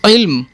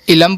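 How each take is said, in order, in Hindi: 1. 'l' और 'm' बिना स्वर के एक गुच्छा बनाते हैं। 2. 'l' और 'm' के बीच एक छोटा स्वर डाला जाता है।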